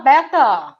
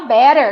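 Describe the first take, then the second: First: It is said with the r sound dropped. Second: It is said with the r sound pronounced. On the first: "aí o britânico fala beta, ainda engole o R" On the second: "o americano fala R, gente. O americano fala better"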